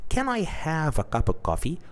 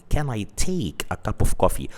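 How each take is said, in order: First: Polite request. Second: Said in the usual way. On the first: Shown as a demonstration. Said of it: "So you ask them by saying". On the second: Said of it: "rather than saying".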